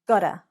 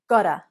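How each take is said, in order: First: The words are reduced and blended into 'gotta'. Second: The words are reduced and blended into 'gotta'.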